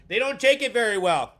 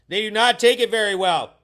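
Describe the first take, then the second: First: Said in the usual way. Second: Not spelled out and punched loud, louder than the rest; stress on not. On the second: Shown as a demonstration. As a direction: hit do not hard, word by word.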